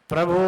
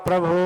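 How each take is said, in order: Both takes have the same delivery.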